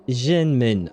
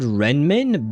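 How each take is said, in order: First: The word begins with a Z-like sound. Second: The word begins with an R sound. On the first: "she said it as Zhen, Zhenmin, I think, like a Z sound" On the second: "I would have said Renmin"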